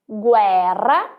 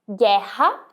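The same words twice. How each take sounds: First: The R is a trilled tongue sound. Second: The R is a raspy throat sound. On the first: This is the Italian pronunciation. "em italiano" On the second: This is the Portuguese pronunciation. "em português"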